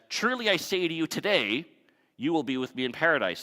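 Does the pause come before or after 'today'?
after. The pause comes after the word today.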